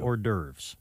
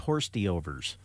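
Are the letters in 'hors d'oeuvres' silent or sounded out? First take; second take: silent; sounded out. First: The word has silent letters, like 'or-derves'. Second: The word is sounded out letter by letter. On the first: The speaker calls it right. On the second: The speaker calls it wrong.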